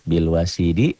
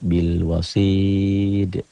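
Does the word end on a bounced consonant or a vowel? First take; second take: vowel; bounced consonant. First: The word ends with a full final vowel. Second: The word ends on a bounced final consonant. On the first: This is how the word is written. "Ini bil wasidi" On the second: This is how the word is read when stopping. "cara bacanya bil wasid"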